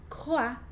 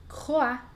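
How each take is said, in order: Both takes have the same delivery.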